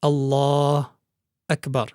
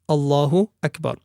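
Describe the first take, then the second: First: There is a pause between the two words. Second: The two words run together without a pause. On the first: The speaker calls it wrong. "One should not stop... between the two words Allah and Akbar" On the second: The speaker calls it right. "There should be no pause in between"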